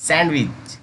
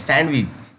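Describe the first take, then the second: No difference in how they are said.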